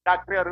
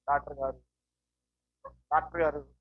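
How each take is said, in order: First: Put-on laugh running out of the words; mock giggling. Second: Low, faint, drowsy call; mock sleepy. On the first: Patient calling the doctor as if come to laugh, mock giggling. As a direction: act a patient who cannot stop giggling at the doctor. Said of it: "నవ్వడానికి వచ్చావా". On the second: Patient calling the doctor as if come to sleep, mock sleepy. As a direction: act a patient nodding off while calling the doctor. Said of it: "నువ్వు నిద్రపోవడానికి వచ్చావా".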